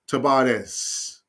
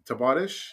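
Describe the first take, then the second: First: It is said the Spanish way, with a B sound. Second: It is said with a Portuguese pronunciation. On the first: "the Spanish pronunciation. B, not V" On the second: "the Portuguese pronunciation, as I understand"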